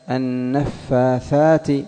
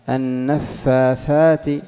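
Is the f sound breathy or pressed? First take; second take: breathy; breathy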